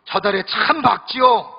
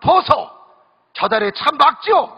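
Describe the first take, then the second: First: Slow sweet standard Seoul speech; sweet Seoul bride. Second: Gyeongsang bride. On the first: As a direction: ask dreamily about the moon. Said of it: "서울 신부가 또 이야기합니다". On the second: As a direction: call out to him like a country Gyeongsang wife. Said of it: "경상도 신부가 이 물어봅니다". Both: Retold or imitated.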